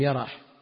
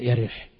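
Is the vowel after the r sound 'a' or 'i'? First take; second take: a; i. First: The vowel after the r is a. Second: The vowel after the r is i. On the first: "بفتح الياء والراء" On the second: "وبعضهم يضبطها بكسر الراء"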